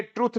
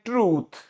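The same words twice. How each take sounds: First: ट्रुथ with a short 'u'; mistaken short vowel. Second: ट्रूथ with a stretched 'oo'; correct long vowel. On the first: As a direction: show the wrong ट्रुथ, vowel cut short. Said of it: "ये ट्रुथ नहीं होता". (ट्रुथ, छोटे 'उ' वाला गलत उच्चारण) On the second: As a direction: model ट्रूथ as 'trooth', vowel held. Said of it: "इसको बोलते हैं ट्रूथ". (ट्रूथ, लंबे 'ऊ' वाला सही उच्चारण) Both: Shown as a demonstration.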